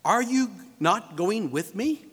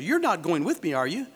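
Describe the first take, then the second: First: Slow, deliberate question rising on "me"; spaced-out "Are you... not going with me?", lifting at the end; question expecting yes. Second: Low tag question, "are you?" lifting slightly; question expecting no. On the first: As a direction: ask it slowly, inviting a yes. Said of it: "you expect a yes answer". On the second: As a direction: state "You're not going with me", then tag on "are you?". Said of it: "you expect a no answer". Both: Shown as a demonstration.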